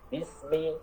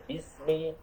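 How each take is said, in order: Both takes have the same delivery.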